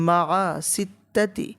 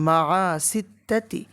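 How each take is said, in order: The two takes are said the same way.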